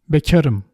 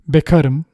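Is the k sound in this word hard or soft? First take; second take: soft; hard. First: The k is pronounced softer, with a palatal quality. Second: The k is pronounced hard, without softening. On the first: "the correct pronunciation is beka, ka, bekarım" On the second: "if you cannot pronounce it, that's totally okay. You just say bekarım"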